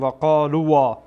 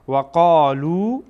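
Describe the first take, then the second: First: The final silent alef is sounded after the vowel. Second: The word ends on a plain long 'oo' vowel. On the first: The speaker calls it wrong. "نمیشه بگیم و قالوا" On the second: The speaker calls it right. "اینها در واقع کاربرد نداره"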